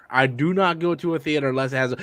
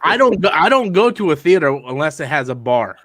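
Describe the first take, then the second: First: "do not" spelled out as two firm, separate words; softer restatement, weighting each word of "do not"; stress on DO NOT. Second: Said in the usual way. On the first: Real, not acted. Insisting to friends on his bar rule, "do not" stressed.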